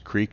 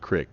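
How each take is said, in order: First: The vowel is a long 'ee' sound. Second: The vowel is a short 'i' sound. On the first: The speaker calls it right. "Trying to use Creek" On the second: The speaker calls it wrong. "not Crick"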